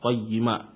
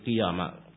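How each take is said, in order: First: The word starts with qa and a doubled y. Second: The word starts with qi and a single y. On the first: The speaker calls it right. "Yang benar adalah qayyima" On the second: The speaker calls it wrong. "bukan qiyama"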